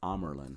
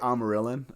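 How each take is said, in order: First: The name is said without an extra middle syllable. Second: The name is said with an extra middle syllable. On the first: This is the corrected way of saying it. The speaker calls it right. "but it's Amerlin" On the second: This is the old way of saying it. The speaker calls it wrong. "I used to say Amarillin"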